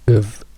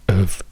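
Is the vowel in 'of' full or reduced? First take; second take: reduced; reduced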